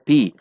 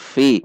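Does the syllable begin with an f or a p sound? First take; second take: p; f. First: It begins with a p sound. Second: It begins with an f sound. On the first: The speaker calls it wrong. "bukan dibaca pi" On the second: The speaker calls it right. "Perhatikan sifat dan makhraj huruf fa. Fi"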